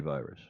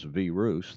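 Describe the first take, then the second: First: It is pronounced the usual English way. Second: It is pronounced the way other languages say it. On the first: It suits English speakers. "Is that better?" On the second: It suits listeners who do not speak English. "that's how you pronounce it in every other language except English"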